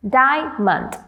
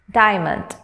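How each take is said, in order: First: "diamond" as dia, break, mond; broken into syllables. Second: Said in the usual way. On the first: Shown as a demonstration. Teacher having learners pronounce along, "diamond" syllable by syllable. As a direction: sound out "diamond" in separate beats. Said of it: "break them into syllables". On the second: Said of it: "let's pronounce these words once".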